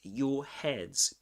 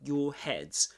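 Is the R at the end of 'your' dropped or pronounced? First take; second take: dropped; dropped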